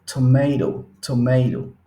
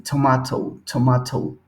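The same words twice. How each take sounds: First: American tomato with the t as r, tomeiɾo; American flap in tomato; American accent. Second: British tomato, tomato with an explosive t; crisp British t in tomato; British accent. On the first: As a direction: acento americano, tomato con r. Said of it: "para los americanos ... suena con R". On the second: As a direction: acento británico, tomato con t explosiva. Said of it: "y es más explosivo". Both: Shown as a demonstration.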